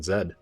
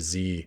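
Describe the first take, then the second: First: The letter is pronounced 'zed', the Canadian way. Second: The letter is pronounced 'zee', the American way. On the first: "I'm Canadian. I should be saying Z" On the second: "Sometimes this Z just sounds better"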